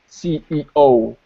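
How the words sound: The letters are said with breaks between them. The speaker calls it wrong. "they would pronounce it with a break between"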